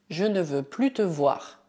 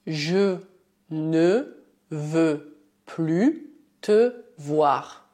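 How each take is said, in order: First: Said in the usual way. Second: "je ne veux plus te voir" said word by word, very slowly; teacher dictating "je ne veux plus te voir" slowly; slow dictation. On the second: Shown as a demonstration. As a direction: spell it out slowly, pausing between words. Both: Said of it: "Por exemplo".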